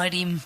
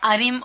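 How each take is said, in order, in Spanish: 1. El acento está en la segunda sílaba. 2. El acento está en la primera sílaba. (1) "o está en la I" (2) "el acento está en la A"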